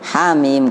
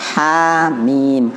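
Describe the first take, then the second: First: The letter names are short and run together. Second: The letter names are held for two counts. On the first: "kalau satu hamim langsung" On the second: "Kalau dua"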